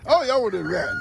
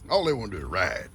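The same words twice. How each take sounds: First: "All y'all wanna do is ride" said higher and teasing; high playful tease. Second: Said in the usual way. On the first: Real, not acted. Papa teasing his goats who only want to ride.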